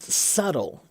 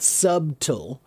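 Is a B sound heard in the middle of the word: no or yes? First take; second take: no; yes. First: No B sound is pronounced in the middle. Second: A B sound is pronounced in the middle. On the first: The speaker calls it right. "it's just subtle. Just pretend it doesn't have a B in it" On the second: The speaker calls it wrong. "it's not subtle"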